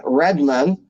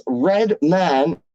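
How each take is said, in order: First: "Redman" as one word with a weak "mun" ending; wrong pronunciation. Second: "Redman" slowly, as two full words "Red" and "Man"; correct pronunciation. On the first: Showing how people get the rapper wrong, reduced ending. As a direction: swallow the vowel of "man" in "Redman". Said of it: "it's not [name]". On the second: Correcting people on the rapper's name, two slow words. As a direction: draw out both halves of "Redman". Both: Shown as a demonstration.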